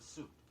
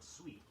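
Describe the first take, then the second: First: The word sounds like 'suit'. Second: The word does not sound like 'suit'.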